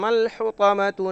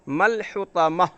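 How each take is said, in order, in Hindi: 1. यह शब्द 'tu' की आवाज़ से खत्म होता है। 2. यह शब्द हल्की 'h' की आवाज़ से खत्म होता है। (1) "जबकि हम अगली आयत से मिला करके पढ़ रहे हैं" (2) "अगर वहाँ पर रुकेंगे तो मल हुतमतु की बजाय मल हुतमह"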